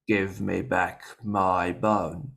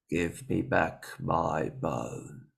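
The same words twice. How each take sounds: First: It is said more loudly. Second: It is said quietly.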